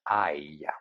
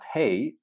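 First: It is said with a silent 'h' like 'eye'. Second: It is said with an 'h' and 'ey' sound. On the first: The speaker calls it right. "but I" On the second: The speaker calls it wrong. "not hey"

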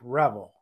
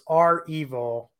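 First: The name is said as one word, revel. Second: The name is said as letter R plus evil. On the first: The speaker calls it wrong. "not Revel like Revel" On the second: The speaker calls it right. "the hacking group Revel is our evil for ransomware evil"

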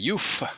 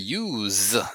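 First: The word ends with an f sound. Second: The word ends with a z sound. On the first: "Some people say youf, like a f" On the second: "Some people say youz, z"

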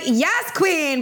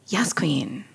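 First: The words are said in an excited way. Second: The words are said in a flat way. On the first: The praise sounds genuinely hyped up. The speaker calls it right. "you're like" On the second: The praise falls flat and does not land. The speaker calls it wrong. "You're not just like, and then I was like"

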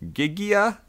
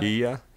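First: The name starts with a hard G sound. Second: The name starts with an H sound. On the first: The speaker calls it wrong. "I'm going to butcher this name" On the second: The speaker calls it right. "you probably don't say the G"

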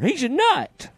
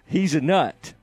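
First: It is said higher, like Barney Fife. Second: It is said at a normal pitch.

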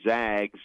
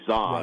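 First: The vowel sounds like the 'a' in 'bag'. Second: The vowel sounds like the 'o' in 'log'. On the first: The speaker calls it right. "you say Zags as an unofficial nickname" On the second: The speaker calls it wrong. "You don't say Zogs"

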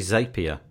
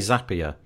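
First: The first syllable rhymes with 'tape'. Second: The first syllable rhymes with 'tap'. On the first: The speaker calls it wrong. "you don't create a zape" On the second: The speaker calls it right. "Because it's a zap"

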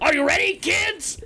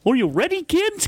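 First: It imitates the SpongeBob pirate captain's voice. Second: It is not in the pirate captain's voice.

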